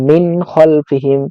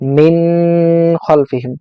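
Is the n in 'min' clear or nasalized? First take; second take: clear; nasalized. First: The n is pronounced clearly, without a nasal hold. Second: The n is held with a long nasal hum. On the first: The speaker calls it right. "এই নুনটাকে স্পষ্ট করে পড়বো" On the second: The speaker calls it wrong. "মিন বলে গুণনা করা যাবে না, মিন খলফিহিম এভাবে বলা যাবে না, এটা ভুল হবে"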